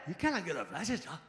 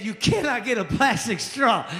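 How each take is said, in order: First: Exact bartender imitation. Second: Said in the usual way. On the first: Shown as a demonstration. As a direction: say it the lazy bartender way. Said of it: "that's exactly how it said". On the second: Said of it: "I think he said".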